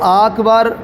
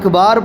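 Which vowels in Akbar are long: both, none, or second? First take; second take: both; second. First: Both vowels in the word are lengthened. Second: Only the second vowel is lengthened. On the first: "अकबर को आकबार या अकबार पढ़ा, तो ऐसी सूरत में नमाज नहीं होगी" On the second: "अकबर को आकबार या अकबार पढ़ा, तो ऐसी सूरत में नमाज नहीं होगी"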